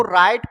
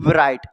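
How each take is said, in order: First: राइट starting straight on the R sound; silent W. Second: राइट with a V sound stuck before the R, "vrait"; wrongly voiced W. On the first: Teacher showing students the correct reading, राइट with silent W. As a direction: say राइट with no V or W before the R. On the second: Teacher showing the reading to avoid, राइट as "vrait". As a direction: sound the silent W at the start of राइट. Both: Shown as a demonstration. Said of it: "ना कि क्या पढ़ेंगे".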